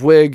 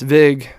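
First: The syllable begins with a w sound. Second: The syllable begins with a v sound. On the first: "Instead of Wig" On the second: "it's Vig"

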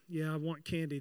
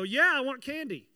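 First: It is said flatly, without excitement. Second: It is said loudly and excitedly.

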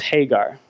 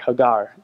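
First: The name is said with an English pronunciation. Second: The name is said with a Hebrew pronunciation.

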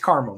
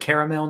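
First: The name is said with two syllables. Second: The name is said with three syllables. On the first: The speaker calls it right. "It's Carmel. There's no goddamn A" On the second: The speaker calls it wrong. "the guy at the gas station kept pronouncing it caramel"

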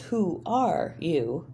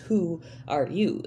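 First: The stress does not fall on both 'who' and 'you'. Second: The stress falls on both 'who' and 'you'. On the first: The speaker calls it wrong. "putting the emphasis on the wrong syllable" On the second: The speaker calls it right. "emphasis on the first and the last word"

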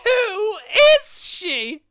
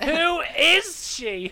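First: The word 'who' is strongly emphasized. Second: The word 'who' is not especially emphasized.

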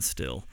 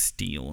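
First: The vowel is a short i sound. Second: The vowel is a long ee sound. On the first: The speaker calls it wrong. "not still" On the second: The speaker calls it right. "STIHL is pronounced steel"

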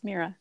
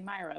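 First: The first vowel sounds like 'ee'. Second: The first vowel sounds like 'eye'. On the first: This is the name's real pronunciation. The speaker calls it right. "but it's Mira" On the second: This is how many people say the name. The speaker calls it wrong. "A lot of people say Myra"

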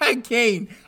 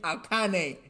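First: It is said with the usual English pronunciation. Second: It is said with an anime-style pronunciation. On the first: The speaker calls it right. "not Arcane" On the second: The speaker calls it wrong. "I'm so used to anime when I see that kind of thing"

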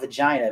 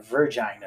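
First: The first syllable is a short 'vuh' sound. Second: The first syllable is a stressed 'ver' sound. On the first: "not vagina" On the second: "You can put a lot of emphasis like on the ver"

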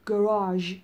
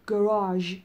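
First: It is said in an American English accent. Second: The same.

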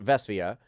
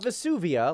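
First: The name sounds unlike the volcano's name. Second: The name sounds like the volcano's name. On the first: The speaker calls it right. "but Vesuvia" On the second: The speaker calls it wrong. "Not Vesuvia, like the volcano"

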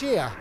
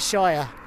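First: The word is said like 'sheer'. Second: The word is said like 'shire'. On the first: The speaker calls it right. "it's Shear, as in like, you know, a pair of garden shears" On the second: The speaker calls it wrong. "we don't actually say Shire"

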